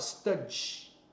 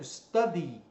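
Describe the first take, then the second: First: The final vowel sound is dropped. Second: The final vowel sound is clearly pronounced. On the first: It sounds like the word for a stallion. The speaker calls it wrong. "O brasileiro vai lá e fala study, aí vira outra palavra" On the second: It is the verb to study. The speaker calls it right. "Tem que pronunciar o Y"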